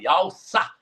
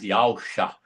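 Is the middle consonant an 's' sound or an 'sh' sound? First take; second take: s; sh. First: The middle consonant is a plain 's' sound. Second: The middle consonant is an 'sh' sound. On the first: This is how they say it now. The speaker calls it wrong. "Eles falam Yalsá" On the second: This is the original form they no longer say. The speaker calls it right. "Eles não falam mais Yalshá"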